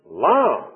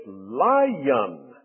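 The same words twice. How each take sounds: First: Lion as one syllable, "lahn"; Southern pronunciation. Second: Lion drawn out as "LY-yun"; Northern pronunciation. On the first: Preacher showing speech south of Mason-Dixon, Southern one-syllable lion. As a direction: say "Lion" with no Y sound. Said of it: "what we say in the language of Canaan". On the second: Preacher mimicking friends up north, exaggerated two-syllable lion. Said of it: "they like to put a little Y in there". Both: Shown as a demonstration.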